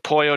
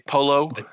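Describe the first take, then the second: First: It is said with a Spanish pronunciation. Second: It is said with an anglicized pronunciation. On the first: The speaker calls it right. "something called the pollo de jefe" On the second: The speaker calls it wrong. "but they say polo every time"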